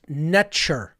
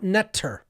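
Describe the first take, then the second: First: The middle consonant sounds like 'ch', as in nature. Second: The middle consonant sounds like a plain 't'. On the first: The speaker calls it right. "N T R was actually pronounced Netcher, ... extremely close to the English pronunciation of nature" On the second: The speaker calls it wrong. "not Netter, as many people will pronounce it"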